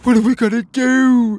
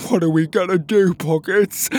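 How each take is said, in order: First: Very high, very loud panicked wail; frantic cry. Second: High, loud character voice in distress; panicked cry. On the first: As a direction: cry out in rising desperation. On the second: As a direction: wail it to your friend for help. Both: Acted. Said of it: "Petey cried".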